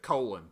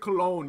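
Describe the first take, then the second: First: The name is said to sound like 'colon'. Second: The name is said to sound like 'Cologne'. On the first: "You pr- pronounce it colon" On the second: "You don't pronounce it Cologne"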